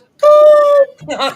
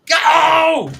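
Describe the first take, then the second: First: A high-pitched voice shouts the word. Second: A low-pitched voice shouts the word. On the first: A female commentator is celebrating a goal. "the woman screams goal and she goes" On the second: A male commentator is celebrating a goal. "you get a male one on and he screams"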